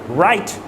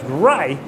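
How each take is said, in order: First: The final T is fully released. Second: The final T is stopped, almost silent. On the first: The speaker calls it wrong. "I'm not saying it as right" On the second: The speaker calls it right. "I'm saying it as right because you're stopping that T"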